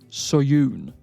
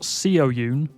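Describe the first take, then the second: First: The first syllable has one single vowel sound. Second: The first syllable has two separate vowel sounds. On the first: The speaker calls it right. "it's actually pronounced Soyoon" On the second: The speaker calls it wrong. "Not Seo Yoon"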